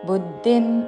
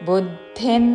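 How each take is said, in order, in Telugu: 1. చివరి నాసికాన్ని n గా పలకరు. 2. చివరి నాసికాన్ని n గా పలుకుతారు. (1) "అనకూడదు" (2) "అనుస్వారం అన్ ఉచ్చారణ"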